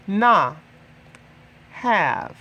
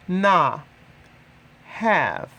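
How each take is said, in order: Both takes have the same delivery.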